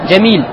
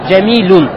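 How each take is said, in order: First: The word ends on a bare consonant. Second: The word ends in the nasal -un ending. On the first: The speaker stops at the end of the word. "когда ты останавливаешься, ты останавливаешься на сукуне" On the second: The word has no article in front of it. "Ставишь танвин в конце"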